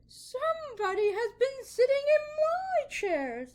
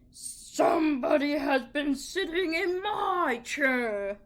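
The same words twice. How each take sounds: First: It is said in a medium-pitched middle voice. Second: It is said in a deep, rough, gruff voice.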